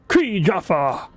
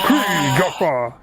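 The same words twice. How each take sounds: First: It is said in a normal voice. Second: It is said in a really deep voice.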